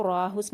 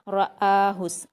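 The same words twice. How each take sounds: First: "राहुस" with one long aa straight after the r; run-together mispronunciation. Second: "रआहुस" as short ra, then a distinct long aa; separate hamza. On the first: Teacher showing what to avoid, "राहुस" without the hamza. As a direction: slur the two vowels of "राहुस" into one, no glottal break. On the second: Teacher showing the correct reading, separated hamza in "रआहुस". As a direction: recite "रआहुस" slowly, breaking cleanly between r-vowel and aa. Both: Shown as a demonstration. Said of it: "हम इसको राहुस नहीं पढ़ेंगे".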